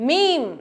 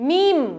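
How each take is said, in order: No difference in how they are said.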